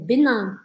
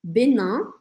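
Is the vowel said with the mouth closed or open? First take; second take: open; open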